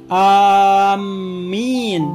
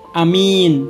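First: The first vowel is long, the m doubled. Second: The first vowel is short, the second long. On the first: "memanjangkan huruf alif dan mentasjidkan huruf mim" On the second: "dipendekkan huruf alif dan dipanjangkan huruf mimnya"

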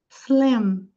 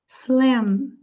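No difference in how they are said.

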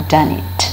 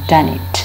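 The two takes are said the same way.

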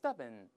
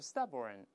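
First: The ending has no r-colouring. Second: The ending is r-coloured. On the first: "英国人都是stubborn" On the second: "美国人都是stubborn，后面加个儿化韵就好了"

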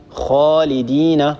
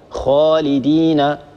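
No difference in how they are said.

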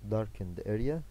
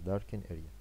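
First: The final d of darkened is pronounced. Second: The final d of darkened is dropped.

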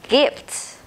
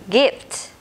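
No difference in how they are said.

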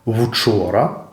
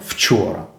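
First: The hissing sound is hard without whistling noise. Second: The hissing sound has a high whistling noise. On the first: The speaker calls it right. "Українською вони мають бути твердими і не свистіти" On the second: The speaker calls it wrong. "а не"

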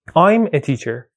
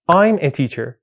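First: I am is contracted into one syllable. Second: The same.

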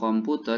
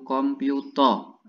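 First: It is said with a plain Indonesian pronunciation. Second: It is said the Korean way, ending in 'o'.

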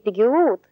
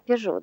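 First: It is read letter by letter, as pe-ge-ut. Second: It is said the French way, as pe-zho. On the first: The speaker calls it wrong. "для меня не Пегеут" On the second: The speaker calls it right. "а Пежо"

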